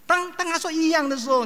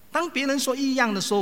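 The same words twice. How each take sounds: First: 当 repeated and punched much higher; high stressed repeat. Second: 当 lifted and stressed, then falling; preacher stressing 当 to set up the question; plain-ish question setup. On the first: Preacher pressing congregation, high stress on 当. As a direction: hammer the word 当 a second time, high and insistent. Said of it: "你会点头吗？". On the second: Preacher to congregation, stressing 当. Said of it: "我们基督徒怎么说？". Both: Shown as a demonstration.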